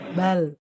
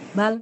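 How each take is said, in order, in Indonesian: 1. Bunyi L tidak dihentikan dan tidak dipanjangkan. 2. Bunyi L dihentikan secara tiba-tiba. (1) "Jadi tawasud itu" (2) "Kalau lamnya shiddah jadi gini"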